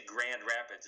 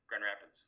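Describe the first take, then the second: First: Said in the usual way. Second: "Grand Rapids" run together, the Michigan way; "Grand Rapids" as a local Michigander says it; Michigan pronunciation. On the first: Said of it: "You don't say Grand Rapids". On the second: Shown as a demonstration. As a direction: say "Grand Rapids" quickly blurred, softer. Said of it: "we tend to change the names".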